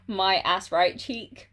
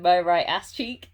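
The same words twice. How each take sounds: First: "my ass right cheek" read slowly, one word at a time; wrong word order. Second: Said in the usual way. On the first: Retold or imitated. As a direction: savour the typo "my ass right cheek", slow and deliberate. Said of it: "a typo that just really amused me". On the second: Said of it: "rather than".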